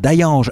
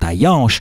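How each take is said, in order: First: The name ends with a soft standard French sound. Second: The name ends with a local 'sh' sound. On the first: The speaker calls it wrong. "non pardon" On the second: The speaker calls it right. "non pardon"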